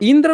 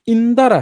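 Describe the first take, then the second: First: The d and r join with no vowel between. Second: A short vowel separates the d and r. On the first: This is the Sanskrit form, said not to be the one used. "इंद्र नहीं है" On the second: This is the Pali-Prakrit form that is actually used. "इंदर है"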